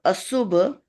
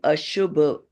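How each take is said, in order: First: The consonant after the first vowel is s. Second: The consonant after the first vowel is sh. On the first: The speaker calls it wrong. "that becomes sh instead of sa. Instead of asubha" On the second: The speaker calls it right. "you will say ashubha"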